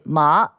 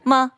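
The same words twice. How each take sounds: First: The pitch rises from middle to high. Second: The syllable is short and light, without full tone. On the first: It means linen. "that means linen" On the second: It marks a question. "which means a question mark"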